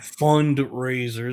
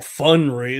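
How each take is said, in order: First: The d sound is clearly pronounced. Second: The d sound is dropped. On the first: Money is being raised. The speaker calls it right. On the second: Fun is being raised. The speaker calls it wrong.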